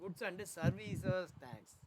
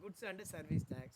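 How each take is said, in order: First: Services ends with a long, drawn-out s. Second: Service is said without a final drawn-out s. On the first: The speaker calls it right. "எஸ் கொஞ்சம் இழுத்து சொல்லணும்" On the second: The speaker calls it wrong. "எல்லாரும் என்ன சொல்லுவாங்க?"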